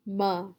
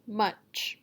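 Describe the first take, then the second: First: MUCH cut to "muh", without its ch; final sound dropped. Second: Said in the usual way. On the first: Shown as a demonstration. Teacher showing what's left of much, final sound dropped. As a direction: say "M" as "muh", leaving ch off. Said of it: "Don't say ch". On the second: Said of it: "deleting the final sound".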